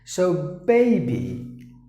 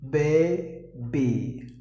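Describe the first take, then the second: First: The first vowel sounds like the letter-name A. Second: The first vowel is not the letter-name A. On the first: The speaker calls it right. "You just imagine there is a A" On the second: The speaker calls it wrong. "Not like that"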